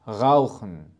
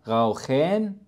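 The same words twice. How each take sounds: First: The vowel in the last syllable is dropped. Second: The vowel in the last syllable is clearly pronounced. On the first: The speaker calls it right. "نلاحظ" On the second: The speaker calls it wrong. "وليس"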